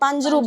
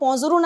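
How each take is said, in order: First: It is said with an 'aa' vowel and a 'j' sound. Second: It is said with a nasal 'o' and a 'z' sound. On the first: This is the everyday standard form. "પાંજરું બોલીએ" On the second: This is the regional folk-song form. "હવે આપણે normal ભાષામાં પોંઝરું ના બોલીએ"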